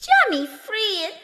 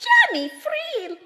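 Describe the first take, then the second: First: High fairy cry of his name; elves crying out. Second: Very high, piercing fairy cry; elves crying out higher. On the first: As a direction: call him from up high. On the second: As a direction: call his name higher still, like an echo. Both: Acted. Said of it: "cried they".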